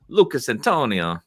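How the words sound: The name is said in an Italian-sounding accent. "That sounds more Italian"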